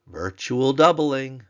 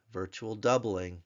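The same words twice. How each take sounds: First: "virtual doubling," higher, louder and slow; emphasis. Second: Said in the usual way. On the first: Shown as a demonstration. Teacher stresses the key term to class, slow and loud. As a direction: lean hard on "virtual doubling,". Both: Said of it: "Notice the".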